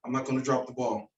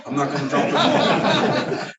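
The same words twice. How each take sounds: First: Said in the usual way. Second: Repeated higher and slower through a laugh. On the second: Retold or imitated. Coach repeating Bo's promise, laughing. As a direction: laugh while saying it. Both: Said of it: "He's like".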